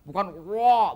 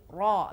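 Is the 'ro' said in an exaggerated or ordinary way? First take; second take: exaggerated; ordinary. First: The ro sound is exaggerated and unusual. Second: The ro sound is plain and ordinary. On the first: The speaker calls it wrong. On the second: The speaker calls it right. "tapi ro biasa"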